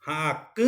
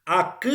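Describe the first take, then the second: First: "Ak" ending in a nasalized Guaraní Y; softer "Ak" with a nasal Y ending. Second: "Ak" ending in an oral Guaraní Y vowel; mouth-only final vowel on "Ak". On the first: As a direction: send the final vowel of "Ak" through the nose. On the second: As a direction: say "Ak" plus a central Y, no nasality. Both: Shown as a demonstration. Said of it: "con la tilde nasal".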